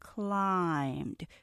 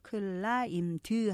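First: It is said as a single syllable. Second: It has an extra vowel sound after the d. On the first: The speaker calls it right. "이건 이름절이에요. climbed 천천히 하나로 발음하셔야 되죠" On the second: The speaker calls it wrong. "climbed 하고 드를 하나 더 발음하시는데요. 그러면 안 되고"

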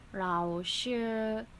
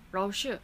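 First: The word is said slowly. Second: The word is said fast.

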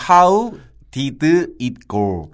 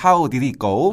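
First: The phrase is said slowly and carefully. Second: The phrase is said quickly and run together. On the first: "다시 천천히" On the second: "좀 빨리 발음하면"

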